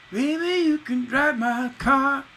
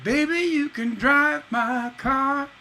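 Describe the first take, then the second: First: Sung high and slow, "you" pushed in early before the beat; ahead of the beat. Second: Sung high and slow, "drive" landing squarely on the beat; right on the beat. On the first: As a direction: push "you can drive my car" ahead of the beat. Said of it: "ahead of the beat". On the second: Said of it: "Instead of". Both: Shown as a demonstration.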